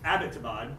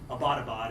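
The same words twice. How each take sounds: First: The start is said like the surname 'Abbott'. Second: The start is not said like 'Abbott'. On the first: The speaker calls it right. "named for General Abbott" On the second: The speaker calls it wrong. "it's been mispronounced a lot in the media"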